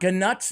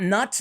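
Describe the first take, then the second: First: The name starts with a sounded G before 'nut'. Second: The name rhymes with 'but', no G sound. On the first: "not ganut" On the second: "Not nut"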